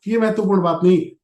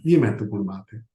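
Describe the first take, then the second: First: ये lifted and pressed, rest of the line falling away; stress on ये. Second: ये said low and soft with a small rise, the line dropping lower and softer to close the point; low settled conclusion. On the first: Teacher tells volunteers what is not important, with ये stressed. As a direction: lean on ये to set up the contrast. Contrasting what matters and doesn't. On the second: Teacher tells volunteers what truly matters, in a low soft close. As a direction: settle the contrast quietly on ये. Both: Shown as a demonstration.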